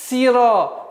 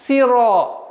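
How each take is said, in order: First: The vowel after s is a front 'ee' sound. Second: The same.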